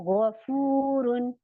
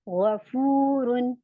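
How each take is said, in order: No difference in how they are said.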